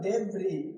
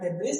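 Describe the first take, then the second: First: The word ends without an s sound. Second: The word ends with an s sound. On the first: The speaker calls it right. "यहाँ क्या लिखा हुआ है" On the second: The speaker calls it wrong. "यहाँ डेब्रिस नहीं पढ़ना है"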